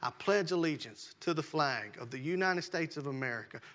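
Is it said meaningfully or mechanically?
meaningfully. It is said with care and meaning.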